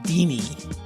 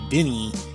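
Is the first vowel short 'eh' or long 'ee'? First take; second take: long ee; short eh. First: The first vowel is a long 'ee' sound. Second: The first vowel is a short 'eh' sound. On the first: This is how the name's owner says it. The speaker calls it right. "He pronounces it Deanie" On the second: This is the host's own habitual pronunciation. The speaker calls it wrong. "like I do"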